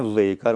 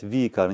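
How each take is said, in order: First: Вейкар as "vey-KAR", v followed by an e-glide; common mispronunciation. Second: Викар as "vee-KAR", two syllables; "ve" and "i" merged into one "vi" in Викар; correct pronunciation. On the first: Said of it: "не Вейкар, многие очень ошибаются". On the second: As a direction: say Викар with an "ee" straight after the v. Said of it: "Надо сказать Викар, не Вейкар". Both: Shown as a demonstration.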